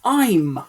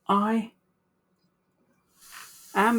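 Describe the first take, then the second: First: One short contracted syllable is said. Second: Two separate full words are said. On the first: "we can shorten this to I'm" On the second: "instead of saying I am every single time"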